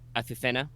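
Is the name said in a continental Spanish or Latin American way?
continental Spanish. It is said with a continental Spanish pronunciation. "the actual continental Spanish pronunciation of this name"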